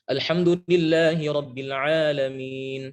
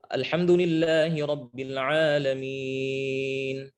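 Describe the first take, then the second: First: The final long vowel is held for two counts. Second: The final long vowel is held for four counts. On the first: "Dua harokat" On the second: "Atau empat harokat"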